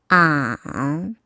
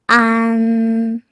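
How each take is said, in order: First: The pitch dips low, then rises. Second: The pitch stays high and level.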